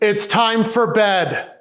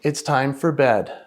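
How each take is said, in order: First: The voice sounds sharp and angry. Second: The voice sounds calm and patient.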